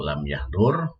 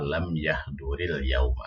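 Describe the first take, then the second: First: The word stops with a bare final r. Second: The word links into the next with -il. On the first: "kalau lam yahdur ya itu uh, terpotong" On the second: "kalau dibaca nyambung maka"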